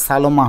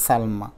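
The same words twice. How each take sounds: First: সালমা in three syllables, "sa-lo-ma"; without hasanta. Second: সালমা in two syllables, "sal-ma"; no vowel between l and m in সালমা; with hasanta. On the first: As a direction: insert an o after the l in সালমা. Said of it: "তা না হলে". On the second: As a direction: join l straight onto m in সালমা. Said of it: "এখন আছে সালমা". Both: Shown as a demonstration.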